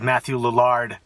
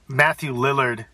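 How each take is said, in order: First: The name is said in a fancy, Juilliard-like way. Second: The name is said in a plain, ordinary way. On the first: The speaker calls it wrong. "Makes him sound like some sort of like Juilliard like actor" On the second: The speaker calls it right. "Thank you for saying Matthew Lillard"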